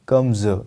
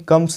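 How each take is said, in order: First: The word ends with a buzzing z sound. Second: The word ends with a hissing s sound. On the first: The speaker calls it right. "इसको बोलेंगे कम्स" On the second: The speaker calls it wrong. "कम्स नहीं"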